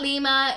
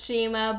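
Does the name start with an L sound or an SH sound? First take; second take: L; SH. First: The name starts with an L sound. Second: The name starts with an SH sound. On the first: The speaker calls it wrong. "it's not Lima" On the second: The speaker calls it right. "it's Shima"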